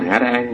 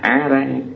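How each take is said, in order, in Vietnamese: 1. Âm tiết đầu tiên bắt đầu bằng âm h. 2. Âm tiết đầu tiên bắt đầu bằng nguyên âm, không có phụ âm đầu. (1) "Không phải là hả ra ăn" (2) "mà là á ra ăn"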